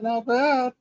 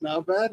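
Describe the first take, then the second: First: Higher pleased repeat. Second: Said in the usual way. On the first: Real, not acted. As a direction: sound pleased with yourself.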